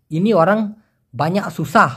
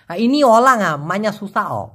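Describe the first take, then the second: First: Said in the usual way. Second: Lightly imitated Chinese accent on ইনি অলাঙা মাইনা সুসা, slower; Chinese speaker's Malay. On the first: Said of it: "ওরা বলে". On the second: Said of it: "ওরা বলে ইনি অলাং মাইনা সুসা". (হালকা Chinese টানে মালয় বলা)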